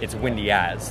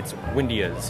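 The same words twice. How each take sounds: First: The stress falls on the word as. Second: The stress falls on the word windy. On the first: The speaker calls it right. "You emphasize the as" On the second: The speaker calls it wrong. "you wouldn't say it's windy as"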